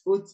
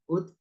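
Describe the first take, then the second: First: The final t is released with an s hiss. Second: The final t ends cleanly without any hiss. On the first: The speaker calls it wrong. "Huruf ta itu tidak ada suara S-nya. ... ini keliru" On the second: The speaker calls it right. "biasa aja"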